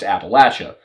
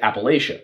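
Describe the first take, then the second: First: It is said the southern US way. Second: It is said the northern US way. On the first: "as you get further south into the deep south ... that's where you're going to start to hear Appalachia" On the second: "Everyone who lives in Appalachia in the north ... almost everybody pronounces it Appalachia"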